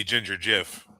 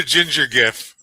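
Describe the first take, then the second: First: Gif said like "jif"; "gif" rhyming with "if", soft g as in "gym". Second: Gif with a hard G; "gif" opened on a hard g sound. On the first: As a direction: start "gif" with a j sound. Punning switch to soft G. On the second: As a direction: say "gif" starting as in "give". Meme name said two ways. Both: Shown as a demonstration.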